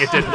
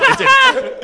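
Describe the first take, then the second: First: Said in the usual way. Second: High, loud laughing denial; laughing high protest. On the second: Real, not acted. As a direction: squeal it out through a laugh. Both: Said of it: "No, I'm kidding".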